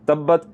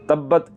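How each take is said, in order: The two takes are said the same way.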